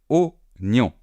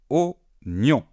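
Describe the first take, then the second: The two takes are said the same way.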